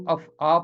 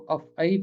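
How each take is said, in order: First: अफ़आ ending in an open long "aa"; first accepted reading. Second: अफ़ई ending in a long "ee"; af-EE, with "ee" closing अफ़ई; second accepted reading. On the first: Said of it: "पढ़ सकते हैं". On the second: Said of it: "अगर आप चाहें तो". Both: Shown as a demonstration.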